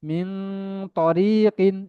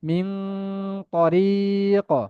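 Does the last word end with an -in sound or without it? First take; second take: with -in; without -in. First: The last word ends with an -in sound. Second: The last word ends without the -in sound. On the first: The reading continues on without stopping. "এইভাবে পড়তে পারেন" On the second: The reading stops at this word. "আর থামলে"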